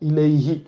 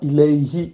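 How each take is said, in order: No difference in how they are said.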